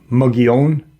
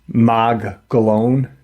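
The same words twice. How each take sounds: First: The name has its local Spanish-style pronunciation. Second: The name has an anglicized English-style pronunciation. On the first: This is the name's actual pronunciation. "it's actually pronounced" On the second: "the Caucasian pronounce it"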